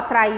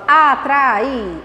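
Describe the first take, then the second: First: The word is run together in one go. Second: The word is split into separate syllables. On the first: The speaker calls it wrong. "Eu não falo atrair de uma vez" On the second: The speaker calls it right. "falo atrair"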